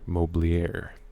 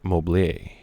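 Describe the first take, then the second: First: The word is said with an American accent. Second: The word is said with a French-style accent.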